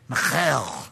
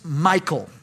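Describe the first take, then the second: First: The name is said with a Jewish accent. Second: The name is said with plain English pronunciation. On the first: The speaker calls it right. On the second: The speaker calls it wrong.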